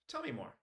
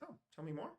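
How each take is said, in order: First: It sounds defensive and closed. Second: It sounds curious and inviting.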